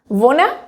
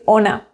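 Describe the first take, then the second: First: The word starts with an added v sound. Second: The word starts directly with a vowel. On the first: This is the informal spoken form. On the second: This is the standard form.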